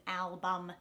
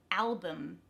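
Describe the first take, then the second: First: ALBUM as al-BUM with a full u; over-pronounce the second syllable of ALBUM; unreduced second vowel. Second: ALBUM as AL-buhm; schwa second vowel. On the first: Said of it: "instead of album". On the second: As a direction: stress the start of ALBUM, weaken the u. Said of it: "it's gonna be a schwa". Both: Shown as a demonstration.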